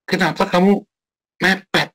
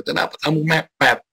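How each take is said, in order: First: High, nagging scold; mock scolding. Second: Higher nagging voice, a little less sharp; repeated mock scold. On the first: Preacher mimicking his own scolding of a late worker, high and nagging. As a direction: scold someone for cutting it close. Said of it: "Jengelnya bukan jengkel karena". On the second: Preacher repeating his scold to the congregation, higher nagging tone. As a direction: nag again at the latecomer. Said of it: "kan gitu kan".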